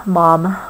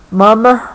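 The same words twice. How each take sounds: First: Mom said the American way with the ah vowel. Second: Mum said the British way, with a short open u. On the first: Parent giving child the American word, American pronunciation. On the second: Parent explaining British word to child, British pronunciation. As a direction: give Mum its English vowel, like mum not mom. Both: Shown as a demonstration. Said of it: "Mum is English for mom".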